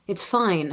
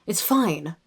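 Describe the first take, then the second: First: RP attempt slipping into Canadian; Canadian accent. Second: Corrected take in RP English; RP accent. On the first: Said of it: "that was a Canadian accent". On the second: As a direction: say it in an RP British accent. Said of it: "Rachel does the R P accent". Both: Shown as a demonstration.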